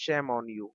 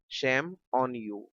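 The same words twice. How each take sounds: First: Said in the usual way. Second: Slow repeat. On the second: Shown as a demonstration. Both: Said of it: "teacher says then repeats slowly".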